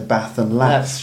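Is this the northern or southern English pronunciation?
northern. It is said in a northern English accent. "in the north they'd say"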